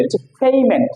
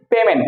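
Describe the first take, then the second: First: পেমেন্ট as "phey-ment"; corrected pronunciation. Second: পেমেন্ট as "pe-men", plain p; common mispronunciation. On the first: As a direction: say পেমেন্ট with a puffed p and "ey" glide. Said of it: "not পেমেন্ট, হচ্ছে পেমেন্ট". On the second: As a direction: say পেমেন্ট with short e and unaspirated p. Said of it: "আমরা বলি পেমেন্ট". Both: Shown as a demonstration.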